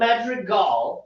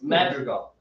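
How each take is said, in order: First: The stress falls on an unusual syllable. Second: The stress falls where speech normally puts it. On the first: The speaker calls it wrong. "It's not Madrigal" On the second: The speaker calls it right. "It's Madrigal"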